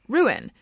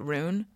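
First: The word is said as two syllables. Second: The word is said as one syllable. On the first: The speaker calls it right. "So now I say ruin. But it feels very unnatural" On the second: The speaker calls it wrong. "I used to always pronounce it rune"

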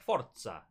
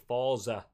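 First: It is pronounced with a European, Italian-like flair. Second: It is pronounced in a plain English way. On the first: "I'll try be a bit of European flair" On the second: "as opposed to"

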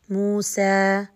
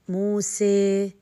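First: The final vowel is a straight, open a. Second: The final vowel leans strongly toward ee. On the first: "لما فتحت بشكل عمودي فأتت مستقيمة، صريحة" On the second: "عندما زدت في انفراج الفم من الجوانب... فأتت معايا الإمالة"

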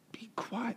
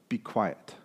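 First: It is said in a relaxed, casual way. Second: It is said in a firm, commanding way.

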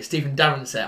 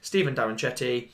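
First: The surname ends with a 'set' sound. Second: The surname ends with a 'chetti' sound. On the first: The speaker calls it right. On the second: The speaker calls it wrong.

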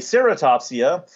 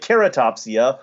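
First: It is said American style, starting with S. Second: It is said UK style, starting with K.

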